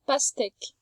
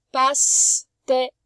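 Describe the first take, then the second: First: Said in the usual way. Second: Pastèque stretched very slowly, each syllable clear; slow sounding out. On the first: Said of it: "Dans pastèque". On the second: Shown as a demonstration. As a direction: draw out pastèque for a young reader. (pastèque, très lentement, syllabe par syllabe)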